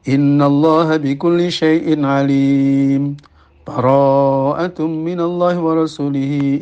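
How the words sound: The verses are separated by a full stop. The first passage is ended before the next begins. "wajah pertama adalah al-qat'u"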